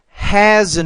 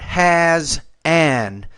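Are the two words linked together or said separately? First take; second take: linked; separated. First: The two words are blended smoothly together. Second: The two words are said separately with a break. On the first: The speaker calls it right. "you want to say each person has an invisible" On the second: The speaker calls it wrong. "not has an"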